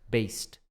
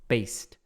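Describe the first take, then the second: Both takes have the same delivery.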